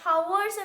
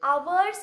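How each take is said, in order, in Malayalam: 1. ഈ വാക്ക് കേൾക്കാവുന്ന h ശബ്ദത്തോടെ തുടങ്ങുന്നു. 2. ഈ വാക്ക് സ്വരാക്ഷരത്തോടെ തുടങ്ങുന്നു, h ഇല്ല. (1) "ചില ചിലയിടത്ത് ഇങ്ങനെയായിരിക്കും പറയുന്നത്" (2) "അവേഴ്സ് എന്നാണ് കറക്റ്റ് പ്രൊനൗൺസിയേഷൻ"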